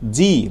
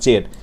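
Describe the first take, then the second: First: The letter name ends in an ee vowel. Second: The letter name ends in an ed sound. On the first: The speaker calls it right. "জি not জেড" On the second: The speaker calls it wrong. "Not জেড"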